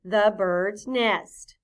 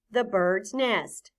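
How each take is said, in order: First: Drawn-out choral reading; slow choral repeat. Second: "The bird's nest." said slowly and clearly; careful slow demonstration; slow model phrase. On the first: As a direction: say it together, very slowly. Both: Shown as a demonstration. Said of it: "Say that with me".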